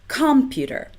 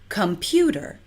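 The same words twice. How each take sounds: First: The stress is on the first syllable, com. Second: The stress is on the second syllable, pu. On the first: The speaker calls it wrong. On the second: The speaker calls it right.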